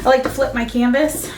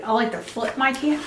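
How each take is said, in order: First: Said in the usual way. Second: Talking around a paintbrush; words muffled by a brush held in teeth; brush in mouth. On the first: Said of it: "oh, sorry". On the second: Real, not acted. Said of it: "talking with a brush in my mouth".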